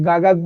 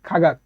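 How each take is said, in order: First: The word begins with a g sound. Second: The word begins with a kh sound. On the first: The speaker calls it wrong. "তাহলে কিন্তু উচ্চারণটা আপনার সঠিক হবে না" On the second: The speaker calls it right. "এটা সঠিক উচ্চারণ হবে খাগাক"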